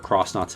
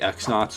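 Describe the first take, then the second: First: The name begins with the sound 'cross'. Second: The name begins with the sound 'ex'.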